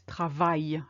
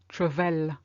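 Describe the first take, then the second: First: The word ends with a 'y' sound. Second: The word ends with an 'l' sound. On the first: The speaker calls it right. "it's travail" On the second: The speaker calls it wrong. "people who learn French will say travel. No, no"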